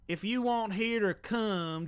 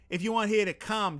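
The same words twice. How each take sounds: First: It is spoken in an American Southern accent. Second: It is spoken in a Boston accent. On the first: "let's try Southern accent" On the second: "Boston accent"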